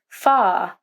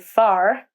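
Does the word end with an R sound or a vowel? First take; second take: vowel; R sound. First: The word ends with a vowel, no R sound. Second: The word ends with a clear R sound. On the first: "a British person would usually say far, ending the word with the vowel sound" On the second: "an American might say far"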